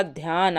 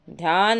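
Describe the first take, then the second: First: ध्यान with aspirated dh, "dhyaan"; correct form. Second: ध्यान with plain d, "dyaan"; no breath on the opening of ध्यान; wrong form. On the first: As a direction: breathe out on the opening dh of ध्यान. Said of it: "आधा ध या न". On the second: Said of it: "ध्यान नहीं होता". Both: Shown as a demonstration.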